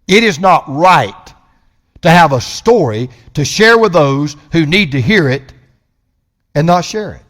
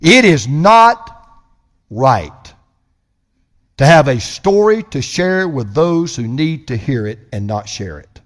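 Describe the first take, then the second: First: Emphatic repeat; firm restatement. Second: Deliberate stress on "not" and "right"; slow emphatic pause. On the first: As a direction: press "not" again with steady force. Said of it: "repeated phrase". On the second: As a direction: stretch "It is not" slowly then drop. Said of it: "first take of repeated phrase". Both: Shown as a demonstration.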